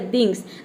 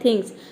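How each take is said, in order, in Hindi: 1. यह शब्द d की आवाज़ से शुरू होता है। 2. यह शब्द एक हल्की साँस वाली th आवाज़ से शुरू होता है। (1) "फिर आपने द रख के प्रोनाउंस किया" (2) "टी एच को जगह पे था रख के प्रोनाउंस किया"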